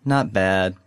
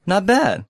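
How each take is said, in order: First: "bad" left low and unstressed; downbeat, unstressed BAD. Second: "bad" lifted high, then falling; stress on BAD. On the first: Learner shows the unconvincing answer, downbeat with "bad" unstressed. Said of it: "sound like you're not doing that great". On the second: Learner answers how he's doing, stress on "bad". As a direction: punch "bad" so it sounds upbeat. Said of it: "put kind of the stress on bad". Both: Shown as a demonstration.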